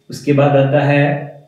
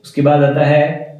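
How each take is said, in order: Both takes have the same delivery.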